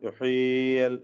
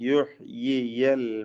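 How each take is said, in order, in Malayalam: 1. രണ്ട് y ശബ്ദങ്ങളും അവ്യക്തമായി കൂടിക്കലർന്നു പോകുന്നു. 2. രണ്ട് y ശബ്ദങ്ങളും വ്യക്തമായും വേർതിരിച്ചും ഉച്ചരിക്കുന്നു. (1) "എന്ന അവ്യക്തമായി പോവരുത്" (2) "രണ്ട് യാഉം വ്യക്തമാക്കി ഉച്ചരിക്കണം"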